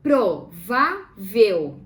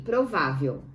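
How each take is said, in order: First: PRO, VÁ, VEL, loud and slow; "Provável" as pro... vá... vel, firmly; syllable by syllable. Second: Said in the usual way. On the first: Shown as a demonstration. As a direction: break "Provável" into three syllables with pauses. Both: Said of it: "Vamos separar em sílabas".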